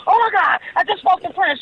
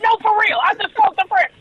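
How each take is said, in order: First: High, breathless with excitement; excited gush. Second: High and emphatic, pleading to be believed; insistent excitement. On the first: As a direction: blurt the news out, thrilled. Calling mother, thrilled news. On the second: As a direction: insist it's true, still buzzing. Insisting to disbelieving mother. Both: Retold or imitated.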